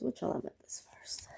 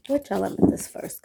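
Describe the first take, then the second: First: Barely audible whisper; whispered question. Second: Said in the usual way. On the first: Real, not acted. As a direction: ask it under your breath, almost to yourself. Repeats the question under her breath.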